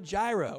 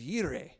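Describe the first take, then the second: First: The word begins with a J sound. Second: The word begins with a Y sound. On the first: The speaker calls it wrong. "He's Jehovah Jireh" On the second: The speaker calls it right. "or maybe the more correct pronunciation is Yireh"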